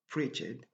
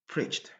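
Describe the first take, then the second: First: The ending adds an extra syllable. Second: The ending is a plain T sound. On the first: The speaker calls it wrong. "On ne doit pas dire preached" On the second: The speaker calls it right. "on a également toujours besoin du son T au passé"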